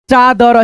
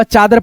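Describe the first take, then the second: First: चादर spelled out with a rising end; sounded out. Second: Said in the usual way. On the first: Shown as a demonstration. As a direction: read चादर slowly, ending up. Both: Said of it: "चादर पढ़ेंगे".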